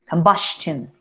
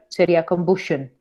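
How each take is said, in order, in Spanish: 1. La terminación se dice con sonido 'ch'. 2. La terminación se dice con sonido 'sh'. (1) "Casi, casi diría una T" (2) "si yo dijera shun, sería combustion"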